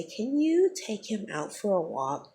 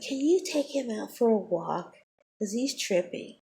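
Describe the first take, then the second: First: Mocking the teacher. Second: High mock voice of the fake-polite teacher. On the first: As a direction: imitate her fake polite request, drawn out. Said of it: "she gonna look at me and say". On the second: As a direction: parody her sugary request, pitched up. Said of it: "She's like".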